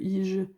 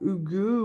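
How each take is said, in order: First: It starts with an 'ee' sound and no h. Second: It starts with an h and an 'oo' sound. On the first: The speaker calls it wrong. "Je sais bien que ça se dit pas comme ça" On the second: The speaker calls it right. "ça se dit apparemment hugueux"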